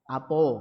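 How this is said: The first vowel is a, the last o. "Orang Palembang misalkan sono apo"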